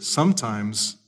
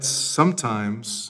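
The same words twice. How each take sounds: First: Sometimes, soft and drawn out as the key word. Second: Said in the usual way. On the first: Shown as a demonstration. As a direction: lean gently into sometimes. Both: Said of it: "and here's the key word".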